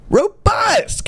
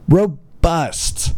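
First: "Robust!" shouted way higher; a high incredulous yelp of "Robust!"; outraged shout. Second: Said in the usual way. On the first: Shown as a demonstration. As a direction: blurt "Robust!" in mock outrage. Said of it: "repeating the ad's word in outrage". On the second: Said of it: "repeating the ad's word".

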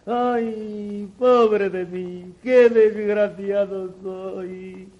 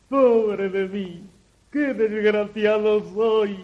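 First: Slow drawn-out wailing. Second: Mock sorrowful sighing; put-on despair, moderate; fake lamenting. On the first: Acted. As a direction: drag out the fake grief. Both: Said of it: "con falsas demostraciones de desconsuelo".

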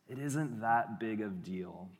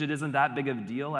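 First: Slow, soft coaxing tempter. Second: Brushing it off. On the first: Serpent tempting in the garden, soft and slow. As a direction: shrug it off gently, drawn out. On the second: Cheating student's inner voice, quickly brushing it off. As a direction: hurry past the guilt. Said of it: "the voice sounds like this". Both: Acted.

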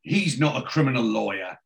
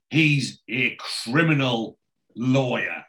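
First: Said in the usual way. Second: Slow, leaning hard on "criminal" in criminal lawyer; stress on criminal. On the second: Shown as a demonstration. Host recasting Hallwood as a crook, slow weighted "criminal". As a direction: drag "criminal" out to make it sound crooked.

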